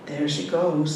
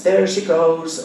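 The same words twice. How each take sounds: First: Said in the usual way. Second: There she goes chanted loud and slow; loud sing-song. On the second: A narrator's reading. Old mother chants the rhyme loudly across the restaurant. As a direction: call it out like a playground rhyme. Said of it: "With a loud voice".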